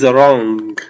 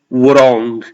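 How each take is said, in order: First: The word begins with a plain R. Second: The word begins with a sounded W. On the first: The speaker calls it right. "It's just the R" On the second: The speaker calls it wrong. "We don't pronounce the W. We don't say wrong"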